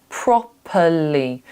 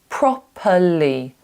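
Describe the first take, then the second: Both takes have the same delivery.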